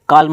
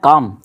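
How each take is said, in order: First: The word is said with an L sound. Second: The word is said without an L sound. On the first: The speaker calls it wrong. "ये काल्म नहीं होता है" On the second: The speaker calls it right. "एल silent रहता है इसमें"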